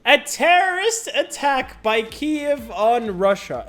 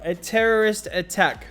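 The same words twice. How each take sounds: First: Terrorist drawn out higher and slower in mock disbelief; sarcastic slow reading of terrorist; mock emphasis. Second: Said in the usual way. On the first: Mocking the headline.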